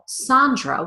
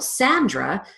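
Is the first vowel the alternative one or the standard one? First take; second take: alternative; standard. First: The first vowel is a different, alternative vowel. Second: The first vowel is the standard American vowel. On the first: The person with the name may prefer this. "she may prefer to be called Sandra with an A" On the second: This is the most common way to say the name. "instead of the A vowel"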